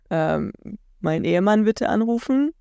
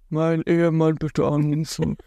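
First: The voice is spoken at a higher pitch. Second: The voice is spoken at a deeper pitch. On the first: The speaker calls it wrong. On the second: The speaker calls it right.

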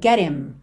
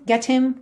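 First: The h is dropped and the t links on. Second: The h sound in him is clearly pronounced. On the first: "esse h, muitas vezes ele acaba sendo suprimido e a gente liga no T" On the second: "não é obrigatório, tá? Você pode falar get him"

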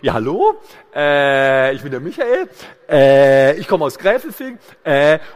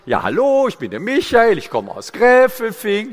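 First: Hesitation sounds fill the breaks between phrases. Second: Phrases rise at the breaks without hesitation sounds.

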